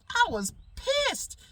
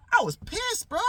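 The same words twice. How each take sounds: First: High and slow, stretching pissed; drawn-out indignation. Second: High, loud indignant outburst. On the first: Repeating to his audience how angry he was, slow and high. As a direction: drag the word out in disbelief. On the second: Telling friends about his missing breakfast mango, loud and indignant. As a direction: let the anger burst out high. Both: Retold or imitated.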